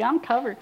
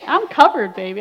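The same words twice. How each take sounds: First: Said in the usual way. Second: I'M punched loud: "I'm covered" as a proud crow; loud triumphant boast. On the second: Retold or imitated.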